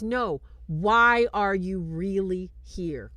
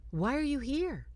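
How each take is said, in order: First: REALLY drawn out and loud; loud, slow challenge weighted on "really"; pressing question. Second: Said in the usual way. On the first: Retold or imitated. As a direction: press hard on "really", slowly. Woman presses Michael for true reason.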